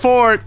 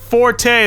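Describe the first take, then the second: First: The word is said as one syllable, 'fort'. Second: The word is said as two syllables, 'for-tay'. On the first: "It's pronounced fort" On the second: "It can be pronounced forte as well"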